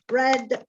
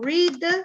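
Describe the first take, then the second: First: It is pronounced as the past tense form. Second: It is pronounced as the present base form. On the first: It is the past tense. "the past and the past participle are read" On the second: It is the basic form of the verb. "it's to read"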